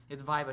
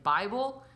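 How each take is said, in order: First: Said in the usual way. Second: Put-on confused old lady. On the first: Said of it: "I was like". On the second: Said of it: "She's like".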